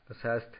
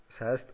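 The two takes are said the same way.

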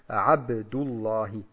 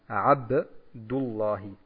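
First: The b is released with a short echoing bounce. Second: The same.

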